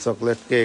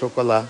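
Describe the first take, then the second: First: It is said with an English-style pronunciation. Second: It is said with a French-style pronunciation.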